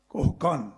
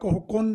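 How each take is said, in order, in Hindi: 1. दूसरे शब्द में स्वर a है। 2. दूसरे शब्द में स्वर u है।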